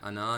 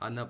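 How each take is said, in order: First: The final vowel is drawn out long. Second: The final vowel is kept short. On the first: The speaker calls it wrong. "अना नहीं पढ़ना, यानी अलिफ मद्दा को नहीं खींचना" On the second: The speaker calls it right. "आना पढ़ना है"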